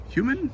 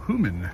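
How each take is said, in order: First: Human? rising high in doubt; puzzled rising Human? as she reads the label; puzzled question. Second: Said in the usual way. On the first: Real, not acted. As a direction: question the odd word Human, pitch sweeping up.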